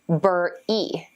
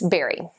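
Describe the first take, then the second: First: The first syllable sounds like 'burr'. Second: The first syllable sounds like 'bare'. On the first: The speaker calls it wrong. "A lot of students mispronounce it as bur-e, but that's wrong" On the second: The speaker calls it right. "It's pronounced exactly like berry"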